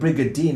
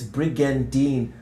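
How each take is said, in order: First: It is said without an N before the D. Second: It is said with an N before the D. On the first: The speaker calls it wrong. "there's an N before the D, so it's not Brigadine" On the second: The speaker calls it right. "It's Brigandine"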